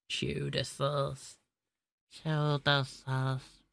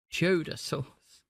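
First: Very slow, softer Cheddar sauce in a mock Indian accent; quietly drawn-out mock accent; put-on Indian accent. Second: Slow, drawn-out cheddar sauce with a light Indian lilt; mock accent, slow and savoured; put-on Indian accent. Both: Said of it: "I do not know why I am starting to speak like this".

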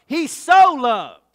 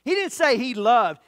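First: So stretched slow and much louder; stress on SO. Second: Said in the usual way. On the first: Shown as a demonstration. Preacher hammering home so in He so loved. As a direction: punch the word so in He so loved. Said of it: "It emphasizes, it puts the major emphasis".

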